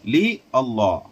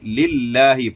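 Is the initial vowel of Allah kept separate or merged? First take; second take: separate; merged. First: Li and Allah are said as separate words. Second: Li merges into Allah as one word.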